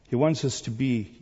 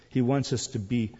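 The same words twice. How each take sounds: The two takes are said the same way.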